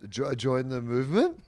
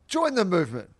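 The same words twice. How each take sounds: First: The voice rises at the end like a question. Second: The voice falls at the end like a statement. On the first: It sounds like the speaker is asking. The speaker calls it wrong. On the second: It sounds like a confident call to action. The speaker calls it right.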